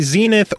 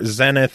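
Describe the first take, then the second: First: It is said the American way. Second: It is said the British way.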